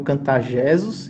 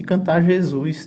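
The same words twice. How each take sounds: First: "Jesus" stressed on the first syllable, JE-sus; "Jesus" said as JÉ-sus, second syllable weak; misplaced stress. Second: "Jesus" stressed on the last syllable, je-SUS; "Jesus" said as je-SÚS, first syllable light; correct word stress. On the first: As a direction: put the weight wrongly on the JE of "Jesus". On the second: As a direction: put the weight on the SUS of "Jesus". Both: Shown as a demonstration. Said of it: "independente de que nota cai a sílaba tônica".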